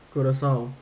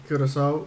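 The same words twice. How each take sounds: First: Curacao ending in an open "ow" sound; alternative pronunciation. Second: Curacao ending in an "oh" sound; pronunciation option. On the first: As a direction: say Curacao as coo-ra-SOW, rhyming with "cow". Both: Shown as a demonstration. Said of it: "What is the proper pronunciation".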